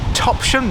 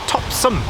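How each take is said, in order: First: The second syllable sounds like 'shum'. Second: The second syllable sounds like 'sum'. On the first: This is the most common way people say it. "people call it Topsham" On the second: This is how old residents of the town say it. "as in some rather than shum"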